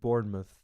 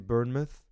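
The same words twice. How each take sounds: First: The first syllable sounds like 'born'. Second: The first syllable sounds like 'burn'. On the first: The speaker calls it right. "you have to say it Bournemouth, right? Born instead of burn" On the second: The speaker calls it wrong. "I used to say Bournemouth because that's how like it reads"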